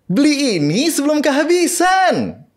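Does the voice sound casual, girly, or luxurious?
girly. It is said in a cute, girly voice. It advertises a Barbie-style slime toy. "si slime itu ya ... yang Barbie"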